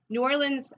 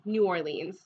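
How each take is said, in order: First: It falls between the Southern and Northwestern pronunciations. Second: It is said with a Washington pronunciation. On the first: "the way I say it... I say it kind of in between those two" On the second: "people in Washington usually say"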